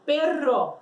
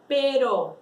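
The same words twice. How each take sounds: First: Perro with a trilled RR; rolled R. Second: Pero with one quick tapped R; single tap R. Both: Shown as a demonstration. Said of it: "Então fala comigo".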